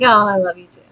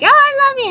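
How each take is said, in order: First: Said in the usual way. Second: Very high, squeaky cute cat voice; cat's voice. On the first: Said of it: "And I'm like". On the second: Retold or imitated. Cat greeting owner who comes downstairs, high cutesy voice. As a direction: imitate a sweet-talking cat, pitched way up. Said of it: "she's like".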